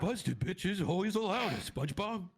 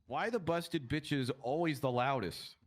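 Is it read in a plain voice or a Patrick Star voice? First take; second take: Patrick Star; plain voice. First: It is said in a Patrick Star voice. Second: It is read in a plain voice.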